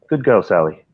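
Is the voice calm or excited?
calm. It is said in a calm, low-key voice.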